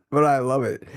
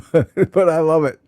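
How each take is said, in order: First: Said in the usual way. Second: Laughing through the words "but I love it". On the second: Real, not acted. Laughs at her viewers' rut.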